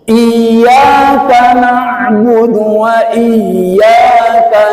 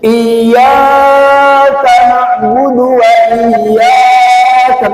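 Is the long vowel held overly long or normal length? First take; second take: normal; overly long. First: The long vowel lasts only two beats. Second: The long vowel is stretched far too long. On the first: The speaker calls it right. "panjangnya cuma dua ketuk" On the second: The speaker calls it wrong.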